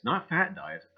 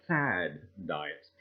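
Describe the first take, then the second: First: "fat" said with a hard final t; stress on fat. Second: "fad" said low with a clear d; stress on fad. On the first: Host correcting himself, leaning on "fat". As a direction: hit the word "fat" to correct it. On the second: Host correcting the word, stressing "fad". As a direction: lean on "fad" as the right word. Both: Shown as a demonstration.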